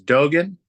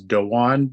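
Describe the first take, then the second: First: The name is said with a hard g sound. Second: The name is said without any g sound. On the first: The speaker calls it wrong. "it could be misconstrued as Dogan" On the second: The speaker calls it right. "how I was told to say it is"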